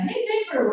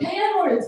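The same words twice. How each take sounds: First: High, sing-song neighborly hail; cool, friendly greeting. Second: High, pointed skinhead call; aggressive mock yell. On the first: Shown as a demonstration. Showing how a friend would hail a neighbor, friendly. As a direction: greet them like a pal, pitched up. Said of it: "not in a cool way, not like in a". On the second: Skinhead accosting uncle and nephew, aggressive mock yell. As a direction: call out hostilely, pitched up. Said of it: "the skinhead yells at us".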